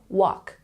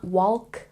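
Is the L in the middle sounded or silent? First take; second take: silent; sounded. First: The L in the middle is silent. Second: The L in the middle is pronounced. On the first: The speaker calls it right. "the L is silent" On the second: The speaker calls it wrong. "It's not walk"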